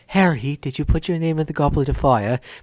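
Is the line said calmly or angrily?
calmly. Dumbledore's line is asked calmly.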